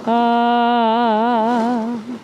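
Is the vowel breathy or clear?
clear. The vowel is clear, with no escaping air. The speaker calls it right. "a good balanced onset and more efficient use of the air"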